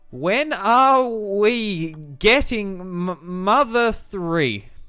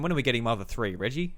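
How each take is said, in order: First: It is said with exaggerated, uneven emphasis. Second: It is said plainly, with even emphasis.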